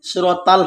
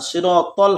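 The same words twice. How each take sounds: First: সিরাতাল with a plain s, the wrong way; wrong sad. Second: সিরাতাল with a heavy sad; correct sad. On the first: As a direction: say সিরাতাল with a light s. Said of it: "হবে না". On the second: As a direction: say সিরাতাল with a full emphatic s. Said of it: "শুদ্ধ হলো সদ". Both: Shown as a demonstration.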